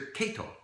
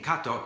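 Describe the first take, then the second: First: The name is said with English-style sounds. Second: The name is said with Japanese-style sounds. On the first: The speaker is imitating how someone else said it. The speaker calls it wrong. "they said Mister Kato" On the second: This is how the speaker had just said it. The speaker calls it right. "I just finished saying Kato"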